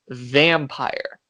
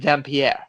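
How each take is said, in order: First: It is said like the English word vampire. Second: It is said the way Vampyr is spelled.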